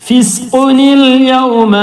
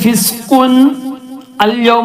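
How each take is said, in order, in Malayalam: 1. നൂൻ ഒരു i യോടെ ചേർന്ന് "yawma"യിലേക്ക് കടക്കുന്നു. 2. "Fisqun"-ഉം "al-yawma"-ഉം ബന്ധിപ്പിക്കാതെയാണ് ഉച്ചരിക്കുന്നത്. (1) "ആ തെൻവീന് നൂനായിട്ട് ഉച്ചാരണത്തിൽ വരണം" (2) "ഫിസ്ഖുൻ അൽ യൗമ എന്ന് വായിക്കൂല"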